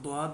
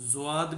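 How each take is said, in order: First: It begins with a d sound followed by w. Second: It begins with a z sound followed by w. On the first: Many people pronounce it this way. "बहुत से लोग द्वाद भी पढ़ते हैं" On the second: This is how it is pronounced in the subcontinent. "India और ये जितना भी हमारा ये बर सग़ीर है इनमें इसको ज़्वाद"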